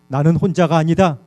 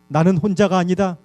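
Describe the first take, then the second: No difference in how they are said.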